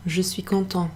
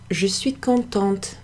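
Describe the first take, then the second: First: "content" ending on a nasal vowel, no T; silent final T. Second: "contente" ending on a hard, sounded T; final T pronounced. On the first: Teacher showing what a chap would say, "content" with silent final T. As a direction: say "content" in French, leaving the T silent. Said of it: "you don't pronounce the T". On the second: Teacher showing the lady's adjective form, "contente" with sounded final T. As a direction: slowly say "contente" with the T heard at the end. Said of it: "does change the pronunciation". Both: Shown as a demonstration.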